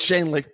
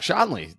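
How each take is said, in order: First: The first syllable sounds like 'shan'. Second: The first syllable sounds like 'shon'. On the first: The speaker calls it right. "but it's Shanley" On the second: The speaker calls it wrong. "when people see me, they go"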